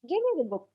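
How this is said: The tone is soft, pleasant and appealing. The speaker is making a polite request. "I have softened my tone"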